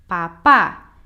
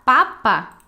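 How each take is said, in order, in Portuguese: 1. A tônica está na última sílaba. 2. A tônica está na primeira sílaba. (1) "Agora sim, seria assim" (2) "se você falar papa assim, na verdade, você pode estar falando, por exemplo, dele"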